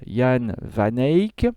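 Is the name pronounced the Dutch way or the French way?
Dutch. The name is pronounced the Dutch way. The speaker calls it right. "il vaut mieux le prononcer euh, à la locale"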